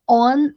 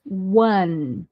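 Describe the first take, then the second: First: "on" starting on the bare vowel, no W; wrong ONE as on. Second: "one" starting with a rounded W glide; ONE with initial W. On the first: Teacher shows the mistaken form of one, without W. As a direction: drop the W and say "on". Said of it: "não é on". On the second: Teacher corrects learners' one, with a clear W. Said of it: "mas one". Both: Shown as a demonstration.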